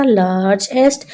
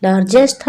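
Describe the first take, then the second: First: लार्जेस्ट in two parts, "laarj - est"; teacher's two-beat लार्जेस्ट; split into syllables. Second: Said in the usual way. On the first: Shown as a demonstration. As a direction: break लार्जेस्ट after the j sound. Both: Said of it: "two parts में पढ़ते हैं".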